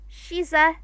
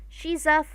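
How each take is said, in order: Both takes have the same delivery.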